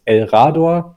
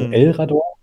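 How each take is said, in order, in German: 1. Die Betonung liegt auf einer späteren Silbe. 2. Die Betonung liegt auf der ersten Silbe. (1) "würde auch gehen" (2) "wie es tatsächlich auch ist"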